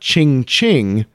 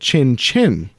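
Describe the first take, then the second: First: Each syllable ends with an ng sound. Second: Each syllable ends with an n sound. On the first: The speaker calls it wrong. "not ching ching, like I was saying it" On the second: The speaker calls it right. "without the G sound at the end"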